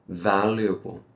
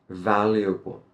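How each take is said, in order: No difference in how they are said.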